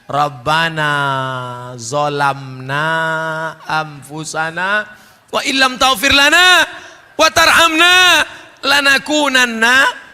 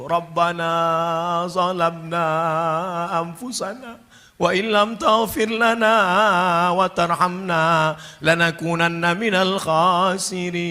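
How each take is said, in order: First: The prayer is shouted loudly. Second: The prayer is said softly, not shouted.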